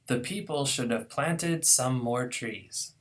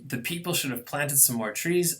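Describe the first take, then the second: First: Every syllable gets equal length, so it sounds slow. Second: Unstressed syllables are squeezed short between the beats. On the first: The speaker calls it wrong. "pronounce every syllable equally long" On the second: The speaker calls it right. "I've got to squeeze a lot more"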